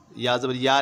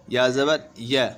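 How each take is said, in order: First: या ज़बर या with the last syllable as long "yaa"; wrong long vowel. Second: या ज़बर य ending on a brief "ya"; correct short vowel. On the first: Teacher warning learners, final या said long. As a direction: lengthen the last या as the error. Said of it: "नहीं पढ़ना है बिल्कुल भी". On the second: Teacher modelling no stretching, final य short. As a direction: do not hold the final य. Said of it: "खींचना बिल्कुल भी नहीं है". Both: Shown as a demonstration.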